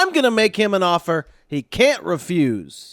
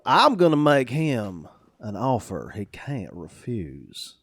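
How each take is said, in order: First: It is spoken flatly in a neutral accent. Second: It is spoken slowly in a southern drawl. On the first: "take it dry, neutral" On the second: "with a southern drawl"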